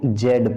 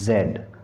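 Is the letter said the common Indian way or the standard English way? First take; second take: common local; standard English. First: The letter name is said the common local way. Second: The letter name is said the standard English way. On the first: The speaker calls it wrong. "जेड को जेड पढ़ते हैं, जो कि गलत है" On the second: The speaker calls it right. "इसका जो सही उच्चारण होता है वो होता है जेड"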